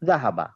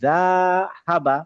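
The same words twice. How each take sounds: First: All three syllables are held for equal short beats. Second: The first syllable is stretched to two beats. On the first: The speaker calls it right. "দাহাবা একসাথে উচ্চারণ করতে হবে" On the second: The speaker calls it wrong. "দা তে আমি এক কাউন্টের জায়গায় দুই কাউন্ট করে ফেললাম"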